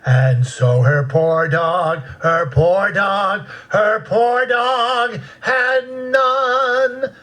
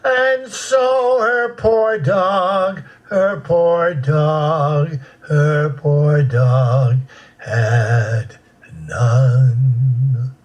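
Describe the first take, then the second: First: The pitch starts low and climbs higher. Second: The pitch starts high and moves lower.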